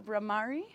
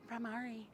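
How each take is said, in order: First: Bhramari said with a flat English r and vowels; anglicised Bhramari. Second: Bhramari said softly, the Sanskrit way, rolled r, open a's; retry Bhramari with the proper Indian sounds; corrected Bhramari. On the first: Teacher's first, anglicised try at the name, Bhramari. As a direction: say Bhramari the way an English speaker would. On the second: Teacher corrects her own English-sounding Bhramari, said properly. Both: Shown as a demonstration. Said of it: "that's a horrible English accent".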